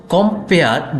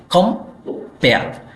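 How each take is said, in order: First: Said in the usual way. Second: কম্পেয়ার slowly, as two separate syllables with a gap; split into syllables. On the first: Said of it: "এই শব্দটি উচ্চারণ করতে গেলে দুটি syllable". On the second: Shown as a demonstration. Teacher showing students the two syllables, কম্পেয়ার said slowly in two parts. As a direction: break কম্পেয়ার after its first syllable, drawing it out. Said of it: "দুটি syllable পাওয়া যায়".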